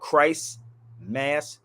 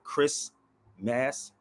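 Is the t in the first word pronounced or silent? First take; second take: pronounced; silent. First: The t of Christ is clearly pronounced. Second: The t is dropped, sounding like Chris. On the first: The speaker calls it right. "it's called Christ Mass" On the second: The speaker calls it wrong. "not Chris Mass"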